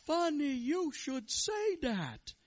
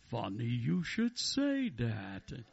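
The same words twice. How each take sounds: First: High, loud, drawn-out rabbi. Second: Voice from heaven. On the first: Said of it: "The Rebbe looks around and says". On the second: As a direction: boom it out slowly, swooping up on the punchline. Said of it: "a voice from heaven says". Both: Acted.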